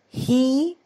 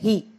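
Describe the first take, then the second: First: The vowel is long and stretched. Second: The vowel is short and clipped. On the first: The speaker calls it right. "You stretch that" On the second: The speaker calls it wrong. "here you don't say he"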